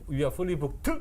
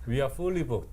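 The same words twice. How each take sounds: First: The final consonant of booked is strongly emphasized. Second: The final consonant of booked is light and brief. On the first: The speaker calls it wrong. "이러면 이상하잖아요" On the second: The speaker calls it right. "그냥 이렇게 트, 뭐 이런 정도로"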